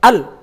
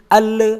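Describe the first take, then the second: First: The l sound stops abruptly with no release. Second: The l sound is released with a trailing sound. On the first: "berarti dia akan berhenti mendadak" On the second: "lepasnya huruf lam itu masuk pada sifat rakhawah"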